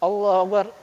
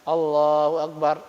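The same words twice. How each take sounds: First: It is said quickly, with no pause after. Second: It is said calmly, with a pause after.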